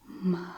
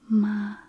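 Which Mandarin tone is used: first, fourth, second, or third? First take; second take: third; first. First: It is said with the third tone. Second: It is said with the first tone. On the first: It means horse. "The third one is the third tone" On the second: It means mother. "ma with the first tone is your mum"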